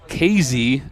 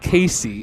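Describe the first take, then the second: First: The second consonant is a z sound. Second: The second consonant is an s sound. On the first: The speaker calls it right. "It is pronounced K Z" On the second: The speaker calls it wrong. "and not Casey"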